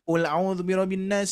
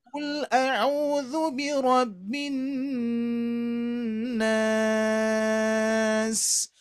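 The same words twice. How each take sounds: First: The vowels are short and the recitation quick. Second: The vowels are drawn out and the recitation slow. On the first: The speaker calls it wrong. "Terasa pendek" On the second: The speaker calls it right. "kalau ditajwidkan panjang sekali"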